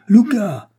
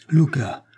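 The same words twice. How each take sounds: First: Cri aigu, bien plus haut et plus fort; cri désespéré. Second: Appel inquiet, un peu plus haut; premier appel. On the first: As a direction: hurle «Luca!» pour le tirer de sa stupeur. (José crie le nom de son ami, cri désespéré) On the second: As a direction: appelle Luca une première fois, encore retenu. (José appelle son ami pétrifié, appel inquiet) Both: A narrator's reading. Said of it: "s'écria Don José".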